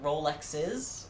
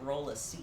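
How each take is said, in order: First: Rolexes said ROH-lex-iz, a plain added -iz; regular plural Rolexes. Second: Roleces said ROH-luh-seez, like vertices; Latin-style plural Roleces. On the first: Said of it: "Rolex is the plural". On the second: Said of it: "Like vertex and vertices". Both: Shown as a demonstration.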